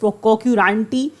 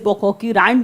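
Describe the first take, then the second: First: The word ends with an 'ee' vowel. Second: The word ends on a bare 't' sound. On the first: This is the dictionary pronunciation. "It is पोकोक्यूरांटी as per the dictionary" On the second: This is how most people say it. "पोकोक्यूरांट बोलते हैं ज़्यादातर लोग"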